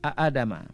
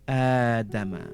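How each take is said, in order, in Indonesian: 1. Diawali dengan dua vokal hamzah yang terpisah. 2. Diawali dengan satu vokal panjang. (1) "Sebenarnya perkataan dia a Adama" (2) "So kita baca dengan Adama"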